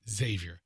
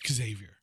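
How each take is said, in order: First: The name begins with a 'z' sound. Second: The name begins with an 'eks' sound. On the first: The speaker calls it right. "anything that starts with an X is Z sound. It's Xavier" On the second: The speaker calls it wrong. "I can't stand people named Xavier. Who pronounce Xavier"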